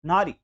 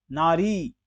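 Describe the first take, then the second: First: नारी as "naari", quick ending; wrong short i. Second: नारी as "naaree", end held; long ee. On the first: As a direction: clip the last vowel of नारी. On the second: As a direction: stretch the final vowel of नारी. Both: Shown as a demonstration. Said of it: "बड़ी की मात्रा".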